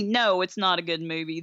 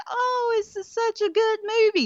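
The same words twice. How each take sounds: First: Said in the usual way. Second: High, sing-song fake praise; mock gushing viewer. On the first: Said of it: "own rebuttal". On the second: Mocking viewers who call it good, high sing-song. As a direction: parody a fan swooning over it. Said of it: "just be like".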